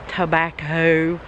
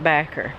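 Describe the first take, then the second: First: The word is said with all three syllables. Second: The first syllable is dropped, leaving 'backer'. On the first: This is how outsiders say it. "You say tobacco" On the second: This is how locals in the South say it. "we call it backer. Now you know something, a little bit of uh, our southern dialect"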